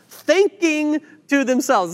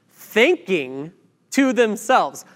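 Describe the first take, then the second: First: Thinking to themselves, higher, slower, leaning hard on thinking; slow down and underline thinking; stress on thinking. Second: Said in the usual way. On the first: Shown as a demonstration. Preacher repeating the verse so the church catches it, thinking stressed. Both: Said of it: "This will become important in a minute".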